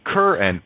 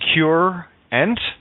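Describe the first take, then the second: First: The first syllable sounds like 'cur'. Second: The first syllable sounds like 'cure'. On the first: It refers to a curse. "One is a cur" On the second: It refers to healing. "the healing mind"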